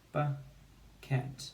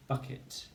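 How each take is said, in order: First: Bucket split into buh and ket; bucket in syllables. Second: Said in the usual way. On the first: Shown as a demonstration. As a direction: pause between bucket's two syllables. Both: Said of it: "Two syllables".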